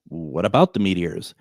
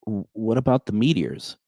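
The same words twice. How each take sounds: First: Bewildered echo. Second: Timid caller. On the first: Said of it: "And I'm just like". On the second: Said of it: "she's just like". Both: Retold or imitated.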